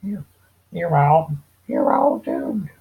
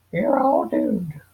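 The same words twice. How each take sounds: First: Put-on higher, louder, drawn-out raspy old man; slow ominous raspy drawl. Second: Slow, high, creepy warning voice; doom-laden old prophet, drawn out; ominous old man. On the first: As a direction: rasp out a slow doomy warning. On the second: Acted. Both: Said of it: "If I can do a better one".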